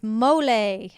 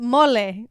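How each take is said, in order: First: Mole said the American way as "mole-ay"; anglicised "mole" with an English o and ay ending; American pronunciation. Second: Mole said the Spanish way as "mo-le"; "mole" with a pure o and a short clipped e; Spanish pronunciation. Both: Shown as a demonstration. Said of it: "I said that in a very American accent".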